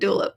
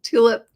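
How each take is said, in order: First: The word begins with a soft D sound. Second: The word begins with a crisp T sound. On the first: The speaker calls it wrong. "not dulip" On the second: The speaker calls it right. "and tulip"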